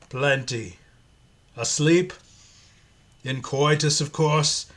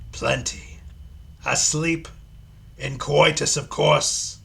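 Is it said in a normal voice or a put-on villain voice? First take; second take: normal; put-on. First: It is said in his normal voice. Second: It is said in a put-on Pinhead voice.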